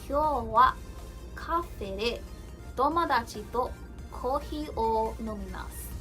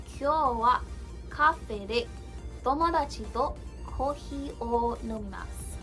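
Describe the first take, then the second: No difference in how they are said.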